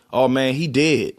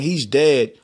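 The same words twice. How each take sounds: First: DEAD said like "did"; casual DEAD with the vowel of "did"; Baltimore pronunciation. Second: Said in the usual way. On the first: Shown as a demonstration. Reporting a death Baltimore-style, DEAD as "did". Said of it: "D I D". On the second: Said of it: "instead of saying".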